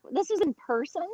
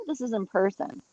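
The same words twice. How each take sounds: First: "This is in person?" asked with a high surprised rise on person; disbelieving, rising at the end; surprised question. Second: Said in the usual way. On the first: Real, not acted. Disbelief at American abroad.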